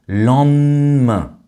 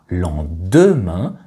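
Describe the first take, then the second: First: The middle syllable is said with an n sound. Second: The middle syllable is said with a d sound. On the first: "les deux lettres DE de lendemain sont aussi mangées et remplacées par un N" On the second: "Marie-Christine ne prononce pas lendemain"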